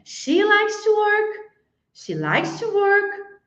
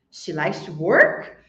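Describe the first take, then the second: First: Slow, higher rising question; question tune. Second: Lower, slow, rise on "work"; rising question. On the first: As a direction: ask "She likes to work" in disbelief. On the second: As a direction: end "She likes to work" on a rise. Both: Shown as a demonstration. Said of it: "se fosse uma pergunta".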